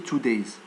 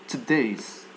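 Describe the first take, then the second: First: The first syllable has a full 'two' vowel. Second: The first syllable has a weak schwa vowel. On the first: The speaker calls it wrong. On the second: The speaker calls it right.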